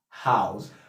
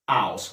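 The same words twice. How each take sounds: First: The word starts with an H sound. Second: The word starts without an H sound. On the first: "The normal English is house" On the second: "house without the H"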